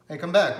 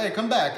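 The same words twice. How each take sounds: First: Loud, high call to come back; a prospect's loud "Hey, come back". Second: Loud, high, aggressive call-back; a commanding "Hey, come back". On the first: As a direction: shout them back before they leave. Prospect calling the rep back. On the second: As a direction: bark it out like a pushy prospect. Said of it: "they use a commanding tone 'cause they're aggressive". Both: Retold or imitated.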